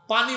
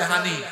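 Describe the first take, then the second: First: It is said in standard Bengali, with p. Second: It is said in Noakhali dialect, with h.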